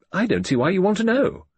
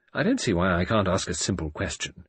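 First: Higher, louder, indignant rise; sharp retort. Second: Said in the usual way. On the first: A narrator's reading. Judith retorts to her father, higher and indignant. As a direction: throw his question back.

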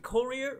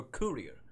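First: Courier said as KUR-ee-er, first variant; courier, offered as the first of two pronunciations. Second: Courier said as KOO-ree-er, second variant; courier, offered as the other pronunciation; alternate pronunciation of courier. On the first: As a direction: say courier with the first vowel as in "cur". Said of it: "do you pronounce it". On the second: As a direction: say courier with an "oo" in the first syllable. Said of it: "courier or courier". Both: Shown as a demonstration.

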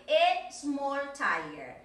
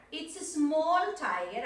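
First: "a" stressed clearly before small, said very slowly; slow teacher drill hitting "a" in "a small tiger". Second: Said in the usual way. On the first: Shown as a demonstration. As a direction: lean on the little word "a".

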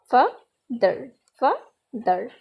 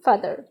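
First: father broken into two beats, fa, pause, ther; teacher's two-part breakdown of father, with a gap between; split into syllables. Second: Said in the usual way. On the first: Shown as a demonstration. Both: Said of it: "এটা দুইবার উচ্চারিত হবে".

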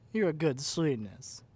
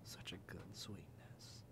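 First: Loud, slow, gushing "good sweetness" like praising a dog; doting dog-owner praise, slow and loud; loud pet praise. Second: Much softer, slow whispered "good sweetness". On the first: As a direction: beam it at them like a proud pet owner. Praising captive like a puppy. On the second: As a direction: breathe the praise almost silently. Soft praise after feeding. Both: Acted.

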